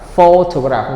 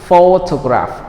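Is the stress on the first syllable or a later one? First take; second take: first; first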